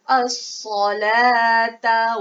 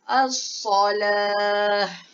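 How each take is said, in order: First: The word keeps a t sound, running on. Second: The word ends in an h sound. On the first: The reciter continues without stopping. "kita kekalkan huruf ta, sebutan dia ta" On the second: The reciter stops after this word. "apabila wakaf, kita kena tukarkan dia jadi huruf ha"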